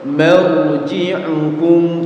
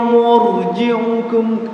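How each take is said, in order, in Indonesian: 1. Vokal pertama seperti a biasa. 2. Vokal pertama seperti u bulat. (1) "ma-nya biasa" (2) "Antum kayak baca mur ya"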